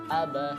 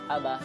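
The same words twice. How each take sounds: First: It is read at a slow, careful pace. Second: It is read at a quick pace.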